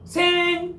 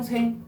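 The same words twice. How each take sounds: First: The syllable is said at a raised, high pitch. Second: The syllable is said at a flat, level pitch. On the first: "거성이라 해가지고 높게 발음하는 거야. 생 이렇게 하는 거라고" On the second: "점이 안 찍혀 있으면 그냥 평평성이야"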